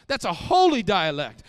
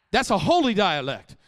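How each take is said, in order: Both takes have the same delivery.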